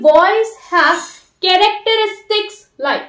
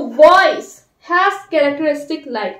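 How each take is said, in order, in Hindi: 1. शब्द characteristics पर सबसे ज़्यादा स्ट्रेस है। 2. शब्द voice पर सबसे ज़्यादा स्ट्रेस है। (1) "कैरेक्टरिस्टिक जो है वो बहुत इंपॉर्टेंट टर्म है" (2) "वॉइस पे ज्यादा स्ट्रेस देके बोले"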